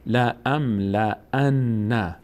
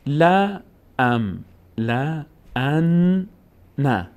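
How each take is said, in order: First: "لا ام لا ان" read through in one slow, connected run; slow model reading of "لا ام لا ان", all joined. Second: "لا ام لا ان نه" very slowly, syllable by syllable; drawn-out teacher's sounding-out of "لا ام لا ان نه"; doubled consonant. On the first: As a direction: link the syllables of "لا ام لا ان" without pauses. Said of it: "دقت کن". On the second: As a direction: stretch "لا" and "ان", pausing before "نه". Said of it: "نون تشدید داره". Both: Shown as a demonstration.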